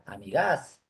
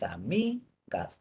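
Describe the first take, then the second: First: The stress is on the last syllable. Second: The stress is on the middle syllable. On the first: The speaker calls it wrong. "Si fuera la última" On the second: The speaker calls it right. "La forma es amigas"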